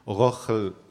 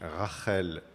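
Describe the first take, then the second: First: The first vowel sounds like 'o'. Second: The first vowel sounds like 'a'. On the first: "en prononciation ashkénaze se dit Rochel" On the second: "en hébreu, on dit Rachel"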